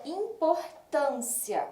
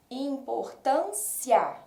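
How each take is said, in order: First: Said in the usual way. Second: Importância drawn out slowly, each syllable clear so the A rings strongest; slow syllable-by-syllable demo. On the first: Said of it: "Outro exemplo". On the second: Shown as a demonstration. Teacher sounding out Importância slowly for her students. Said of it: "nós vamos identificar ... pelo som".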